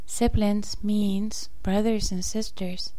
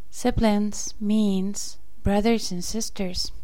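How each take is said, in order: Both takes have the same delivery.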